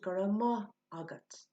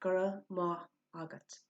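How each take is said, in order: First: The word maith is said like mah. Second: The same.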